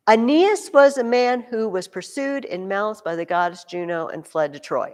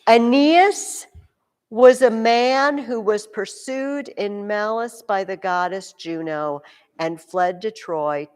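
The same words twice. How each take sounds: First: Said in the usual way. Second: Reads the sentence slowly and deliberately; slow reading aloud. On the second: Shown as a demonstration. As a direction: read it out slowly, word by word. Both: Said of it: "Listen to Jesse's sentence".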